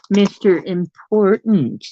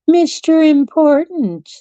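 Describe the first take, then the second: First: Said in the usual way. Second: High, drawn-out mock fanfare; mock-grand announcement. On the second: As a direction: announce the cat slowly, pitched way up. Teasing, grand repeat of cat's nickname.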